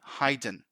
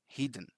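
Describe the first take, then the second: First: The first vowel sounds like the vowel in 'hide'. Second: The first vowel sounds like the vowel in 'hit'. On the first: The speaker calls it wrong. "but that's not the case" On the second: The speaker calls it right. "The correct pronunciation here is hidden"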